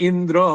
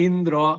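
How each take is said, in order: Both takes have the same delivery.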